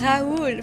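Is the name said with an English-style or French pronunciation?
French. The name is said with a French pronunciation. The speaker calls it right. "It's Raoul, for fuck's sakes"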